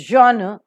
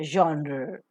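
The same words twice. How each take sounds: First: "genre" as zhon-uh with a light ending; correct pronunciation. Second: "genre" as zhon-rr with an r-coloured ending; American pronunciation. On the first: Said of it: "It is genre". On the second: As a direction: say "genre" American-style, curling the final r. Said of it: "maybe in the American pronunciation". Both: Shown as a demonstration.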